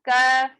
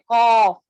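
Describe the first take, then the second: First: The k sound is between heavy and light. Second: The k sound is heavy and thick. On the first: The speaker calls it right. "इसको कैसे पढ़ेंगे" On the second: The speaker calls it wrong. "मोटा नहीं पढ़ना है, कौफ इस तरीके से भी नहीं"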